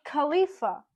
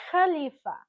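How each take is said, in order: First: Khalifa with a hard English k; English k sound. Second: Khalifa with a rough throat kh; Arabic kh sound. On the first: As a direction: say Khalifa starting with a plain k. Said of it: "an English speaker would say Khalifa". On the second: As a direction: scrape the kh at the start of Khalifa. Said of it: "It's supposed to be". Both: Shown as a demonstration.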